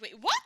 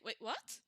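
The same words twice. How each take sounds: First: It sounds really shocked. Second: It sounds curious, not shocked.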